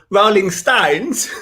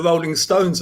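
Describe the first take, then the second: First: Drawn-out mock accent on "[name]"; mimicked bad accent, slow and drawn out; exaggerated own accent. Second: Said in the usual way. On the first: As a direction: stretch "[name]" slowly in an overdone accent. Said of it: "It's 'cause of my accent". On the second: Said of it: "It shows how bad my accent was".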